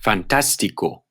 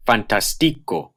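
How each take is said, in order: First: Fantástico said fan-TAS-ti-co; acute-marked stress. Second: Fantástico wrongly said fan-tas-TI-co; misplaced stress. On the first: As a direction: stress the second syllable of Fantástico. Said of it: "the acute above a vowel". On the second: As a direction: stress the third syllable of fantástico. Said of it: "If they didn't have the acute". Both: Shown as a demonstration.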